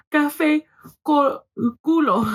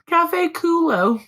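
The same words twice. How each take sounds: First: Said in the usual way. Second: Slow, higher Anglo-American reading of Spanish. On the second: Retold or imitated. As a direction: read the Spanish slowly with an exaggerated American accent.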